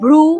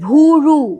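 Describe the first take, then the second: First: The bh and r are said together as a cluster. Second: An u vowel splits the bh and r.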